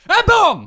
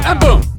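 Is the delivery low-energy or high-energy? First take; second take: high-energy; low-energy. First: It is said with loud, high energy. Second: It is said with little energy. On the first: The speaker calls it right. "It was that bloody energetic" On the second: The speaker calls it wrong. "not enough energy at all"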